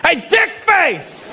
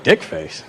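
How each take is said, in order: First: High, drawn-out holler; acted insulting yell. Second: Low, understated puzzlement; puzzled echo. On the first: Italian dude calling the comedian, insulting shout. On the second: Acted. Comedian puzzling over the shouted insult, low and bemused. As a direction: repeat the insult low, as if baffled.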